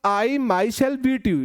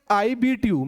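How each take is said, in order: First: "I myself beat you" very slow, each word separate; slow emphatic example. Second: Said in the usual way. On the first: Shown as a demonstration. Teacher to students, emphatic example, very slow. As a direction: lay out every word for the class. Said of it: "लेकिन मैंने बोला". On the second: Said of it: "normal सी बात है".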